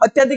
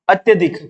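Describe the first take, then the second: First: The vowel after ty is a long aa. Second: The vowel after ty is a short a. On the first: The speaker calls it wrong. "अत्याधिक नहीं होता" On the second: The speaker calls it right. "शब्द होता है ये main अत्यधिक"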